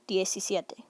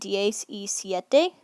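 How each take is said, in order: First: It is said as one merged word. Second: It is said as three separate words.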